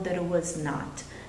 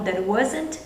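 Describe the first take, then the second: First: The negative is said as three separate words. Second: The negative is contracted into one quick word. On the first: The speaker calls it wrong. "raramente você vai ouvir alguém dizer" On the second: The speaker calls it right. "a gente vai contrair o máximo de coisas"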